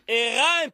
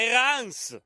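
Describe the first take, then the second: First: The name ends without a final s sound. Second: The name ends with a sounded final s. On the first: The speaker calls it right. "Hérin, pas Hérens" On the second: The speaker calls it wrong. "le S final se prononçait"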